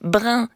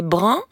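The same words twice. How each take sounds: First: First "brun" said as brin, with spread-lipped in vowel; "brun" pronounced with the vowel of vin. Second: Second "brun" with rounded-lip un vowel; "brun" carefully pronounced with rounded nasal vowel. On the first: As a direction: say "brun" like brin, lips unrounded. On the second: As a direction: say "brun" distinct from brin, lips rounded. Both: Shown as a demonstration. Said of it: "si vous confondez brun et brun".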